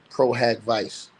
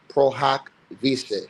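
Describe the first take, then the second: First: The phrase is given an English-style pronunciation. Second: The phrase is given a Latin-style pronunciation. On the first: "If I say it in English"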